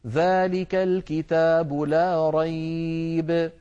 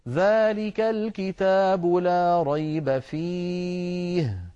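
First: The reading stops before the word fihi. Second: The reading stops after the word fihi.

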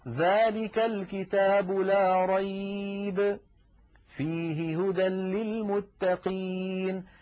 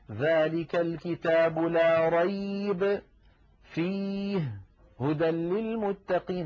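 First: There is a pause after the word rayba. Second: There are pauses both before and after fihi. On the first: The speaker calls it right. "فلذلك كلمة فيه تتعلق بالجملة الثانية" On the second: The speaker calls it wrong. "هذا لا يصح"

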